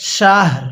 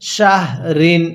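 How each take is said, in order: First: The word ends on a light r sound. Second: The word ends with an added -in sound. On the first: The reader stops at this word. "ওয়াকফ করলে শাহ, রটা হালকা" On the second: The reading continues without a stop. "র দুই জের ঋণ"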